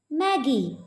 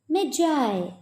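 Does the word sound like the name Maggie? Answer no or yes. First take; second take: yes; no. First: The word sounds like the name Maggie. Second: The word does not sound like Maggie. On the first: The speaker calls it wrong. "It will be wrong if you pronounce this word as Maggie" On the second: The speaker calls it right. "this word Magi will be pronounced as Magi"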